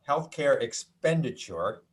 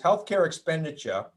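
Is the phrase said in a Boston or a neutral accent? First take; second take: neutral; Boston. First: It is said without a Boston accent. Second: It is said in a Boston accent. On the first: "no Boston accent that time" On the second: "that was my Boston accent"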